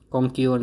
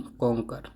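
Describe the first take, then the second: First: कॉन्क्योर with "kyor" ending; wrong pronunciation. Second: कॉन्कर with short "ker" ending; correct pronunciation. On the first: Teacher rejecting a misreading of conquer, wrong कॉन्क्योर. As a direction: glide into "yor" in कॉन्क्योर. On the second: Teacher correcting learners after the misreading, right कॉन्कर. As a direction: finish कॉन्कर without any y sound. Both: Shown as a demonstration. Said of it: "कॉन्क्योर नहीं".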